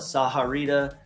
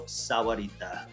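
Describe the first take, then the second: First: The middle sounds like 'ha' instead of 'wa'. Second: The middle has a clear 'wa' sound. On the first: This is how some non-locals say it. The speaker calls it wrong. "Some people call it Saharita" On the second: This is how locals say it. The speaker calls it right. "If you're a local and you've been here long enough, you call it Rancho Sahuarita"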